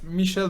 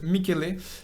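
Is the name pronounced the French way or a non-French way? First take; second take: French; non-French. First: The name is pronounced the French way. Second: The name is pronounced a non-French way. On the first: The speaker calls it wrong. "it's not Michel" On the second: The speaker calls it right. "but Michele"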